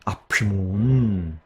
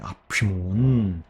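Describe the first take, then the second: Both takes have the same delivery.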